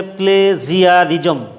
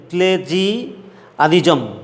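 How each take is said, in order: First: প্লেজিয়ারিজম said as one joined word, "play-jia-rijom"; pronunciation demo. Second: প্লেজিয়ারিজম slowly, broken as প্লে-জিয়া-রিজম; careful pronunciation. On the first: Teacher giving students the pronunciation, প্লেজিয়ারিজম modelled as a whole word. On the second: Teacher working out the word for students, careful pronunciation of প্লেজিয়ারিজম. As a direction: sound out প্লেজিয়ারিজম in slow chunks, opening on "play". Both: Shown as a demonstration. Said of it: "উচ্চারণটা, pronunciation হবে".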